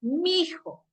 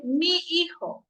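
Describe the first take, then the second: First: "mi hijo" run together into one word, mijo; vulgar mijo. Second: "mi hijo" slowly, both words apart, mi then hijo; careful correct pronunciation. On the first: Teacher contrasting the sloppy "mi hijo" for students. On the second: Teacher showing the class the correct "mi hijo". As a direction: say "mi hijo" slow and clear, never merged. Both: Shown as a demonstration. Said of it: "No dice".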